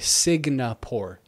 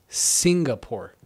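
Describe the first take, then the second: First: The word begins with the sounds 'Signa'. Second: The word begins with the sounds 'Singa'. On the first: The speaker calls it wrong. "I used to always say" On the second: The speaker calls it right.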